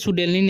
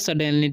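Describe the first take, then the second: First: The first vowel sounds like 'oo'. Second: The first vowel sounds like 'uh'. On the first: The speaker calls it wrong. "इसे सुडेनली नहीं पढ़ना।" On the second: The speaker calls it right. "यू का उच्चारण अ होता है।"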